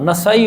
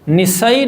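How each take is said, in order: First: The first vowel sounds like 'a'. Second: The first vowel sounds like 'i'. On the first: The speaker calls it right. "होता है" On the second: The speaker calls it wrong. "नहीं होता"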